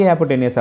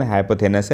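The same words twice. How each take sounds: First: हाइपोटेन्यूज with a T in the middle; हाइपोटेन्यूज as hy-po-TEN-yooz; alternative pronunciation. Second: हाइपोथेनस with a TH in the middle; हाइपोथेनस as hy-po-THE-nus; foreign-book pronunciation. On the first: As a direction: finish हाइपोटेन्यूज with -nyooz, not -nus. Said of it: "बाकी हाइपोटेन्यूज आप बोल सकते हो". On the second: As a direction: finish हाइपोथेनस with -nus, not -nyooz. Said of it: "ये pronunciation हाइपोथेनस है". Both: Shown as a demonstration.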